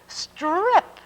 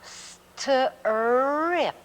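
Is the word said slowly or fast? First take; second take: fast; slowly. First: The word is said fast. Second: The word is said slowly.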